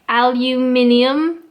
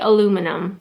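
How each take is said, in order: First: It uses the English pronunciation. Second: It uses the Canadian pronunciation. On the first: "So the English way, again, aluminium" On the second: "but in Canada we would say aluminum"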